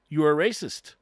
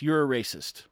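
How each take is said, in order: First: You're a racist, repeated louder and hammered home; emphatic repeat. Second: Said in the usual way. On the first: Real, not acted. To the audience, louder emphatic repeat of the verdict. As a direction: lean into You're a racist as a firm second blow.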